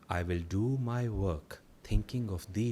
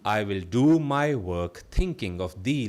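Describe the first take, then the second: First: It is spoken in a quieter, softer voice. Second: It is spoken in a full, normal voice.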